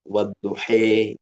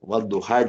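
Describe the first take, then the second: First: The final vowel is bent toward an 'e'. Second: The final vowel sounds like an open 'a'.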